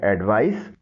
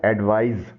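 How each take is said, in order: First: एडवाइस ending in a sharp s sound; advice with s. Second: एडवाइज ending in a buzzing z sound; advise with z. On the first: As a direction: finish एडवाइस on a crisp s. (एडवाइस को आख़िर में "स" की आवाज़ से बोलें) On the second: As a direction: finish एडवाइज on a voiced z. (एडवाइज को आख़िर में "ज़" की आवाज़ से बोलें) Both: Shown as a demonstration. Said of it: "दोनों के तलफ़ुज़ में मामूली सा फ़र्क है".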